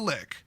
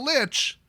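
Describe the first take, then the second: First: The word ends with a k sound. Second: The word ends with a ch sound. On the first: This is the officially given pronunciation. "said that it's a lick" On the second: This is the speaker's own preferred pronunciation. "I would pronounce it Lich"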